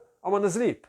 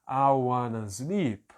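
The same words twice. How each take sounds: First: The phrase is spoken very quickly. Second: The phrase is spoken slowly and carefully. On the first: "Até o dia que eu vou estar conseguindo falar muito mais rápido" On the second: "aí depois eu começo a acelerar um pouco mais"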